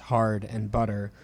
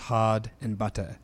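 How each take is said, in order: First: The R sound is pronounced after the vowels. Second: The R sound is dropped after the vowels. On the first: "a rhotic English speaker pronounces the words hard and butter as hard and butter" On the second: "a non-rhotic speaker drops or deletes the R sound, pronouncing them as hod and butta"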